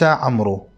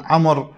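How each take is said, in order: First: "عمرو" with the waw voiced, amroo; two-syllable "عمرو", am-roo; incorrect pronunciation. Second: "عمر" as 'amr, silent waw; one-syllable "عمر", ending in m-r; correct pronunciation. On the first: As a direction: finish "عمرو" on a long oo. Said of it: "وليس عمرو". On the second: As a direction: close "عمر" straight on the r with no oo. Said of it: "المفروض أن يقال". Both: Shown as a demonstration.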